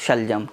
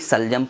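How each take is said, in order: First: The word begins with a 'sh' sound. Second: The word begins with an 's' sound. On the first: The speaker calls it right. "शा से शलजम" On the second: The speaker calls it wrong. "हम गलती क्या कर देते हैं, हम शलजम को भी सलजम पढ़ते हैं"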